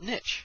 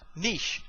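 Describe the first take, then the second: First: Niche is said with the American pronunciation. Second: Niche is said with the British pronunciation. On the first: The speaker calls it wrong. "You hear this, Americans?" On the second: The speaker calls it right. "niche, not niche"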